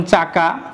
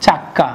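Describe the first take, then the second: First: Said in the usual way. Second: চাক্কা with a held, doubled ক; doubled consonant. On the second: Shown as a demonstration. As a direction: hit the double ক in চাক্কা for emphasis. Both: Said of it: "কেন এটা দুইবার বললাম".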